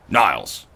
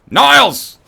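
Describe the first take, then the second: First: It is said quietly and calmly. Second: It is said loudly and forcefully.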